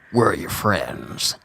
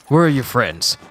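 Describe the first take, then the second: First: It is said imitating Snake's voice. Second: It is said in his normal voice.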